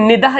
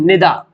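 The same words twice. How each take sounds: First: निदा with a final "h", "ni-dah"; as written. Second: निदा ending on open "aa", no "h"; as spoken. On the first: Teacher showing how not to say it, निदा as "ni-dah". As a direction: end निदा on an audible "h". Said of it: "इसको नहीं बोलेंगे". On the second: Teacher giving the spoken form, निदा as "ni-daa". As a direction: leave the "h" off निदा. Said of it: "इसको क्या बोलेंगे". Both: Shown as a demonstration.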